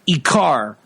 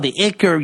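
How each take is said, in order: First: The last syllable has an open 'ah' vowel. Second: The last syllable has a reduced 'er' vowel. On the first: The speaker calls it right. "to pronounce it correctly" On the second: The speaker calls it wrong. "instead of the yeshivish"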